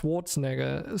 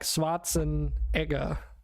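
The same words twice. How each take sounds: First: The middle e sound is left out. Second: The middle e sound is clearly pronounced. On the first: This is the usual, possibly Americanized, pronunciation. "there's like an e in there that just gets left out" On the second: This is how it would be read from the spelling. "if I were to just read it, not having heard it before, that's how I would try and pronounce it"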